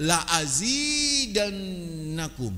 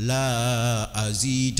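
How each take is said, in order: First: "La azidannakum" chanted higher, with "zi" and the doubled n held; correct recitation. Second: "la azid" with "la" dragged out long; wrong recitation. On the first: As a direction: recite "La azidannakum" slowly, lingering on "zidann". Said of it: "Bacanya apa?". (bacaan benar, "zidann" ditahan dengung) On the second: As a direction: wrongly stretch the "la" in "la azid", slowly. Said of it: "bukan bacanya". (salah baca, "la" dipanjangkan) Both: Shown as a demonstration.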